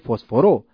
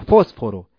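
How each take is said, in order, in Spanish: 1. La sílaba tónica está en una posterior. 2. La sílaba tónica está en la primera. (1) "no se pronuncia fósforo" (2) "se pronuncia fósforo. Entonces, la sílaba tónica se encuentra en el antepenúltimo lugar"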